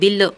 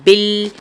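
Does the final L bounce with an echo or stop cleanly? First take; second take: bouncing; clean. First: The final L ends with a bouncing echo. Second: The final L stops cleanly without echo. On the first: The speaker calls it wrong. "बिल बिल नहीं करना है" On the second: The speaker calls it right. "बल्कि पढ़ेंगे बिल"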